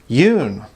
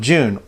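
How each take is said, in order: First: The word begins with a Y sound. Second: The word begins with a J sound.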